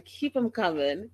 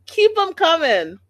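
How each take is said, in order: First: Said in the usual way. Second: Second take jumps high and loud; loud cheer. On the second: Retold or imitated. Vlogger cheering on Mama Karen, loud and high. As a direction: cheer it on, louder and higher. Repeating her own cheer, louder.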